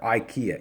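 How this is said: The name is said with an English pronunciation. "you probably call it uh, IKEA or IKEA"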